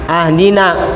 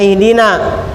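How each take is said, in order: First: The word begins with an a vowel. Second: The word begins with an i vowel. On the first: The speaker calls it wrong. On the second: The speaker calls it right.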